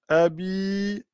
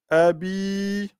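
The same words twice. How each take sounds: No difference in how they are said.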